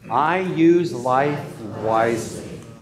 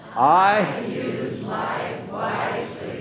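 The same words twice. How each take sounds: First: It is said calmly with ordinary energy. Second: It is said with more energy and force.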